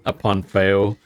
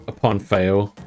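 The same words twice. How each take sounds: The two takes are said the same way.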